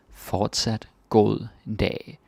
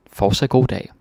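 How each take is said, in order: First: "Fortsat god dag" drawn out slowly, word by word; slow teaching repeat. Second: "Fortsat god dag" louder with a bright push on "god"; cheerful cashier farewell; brisk shop greeting. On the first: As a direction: spell it out slowly for the learner. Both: Shown as a demonstration.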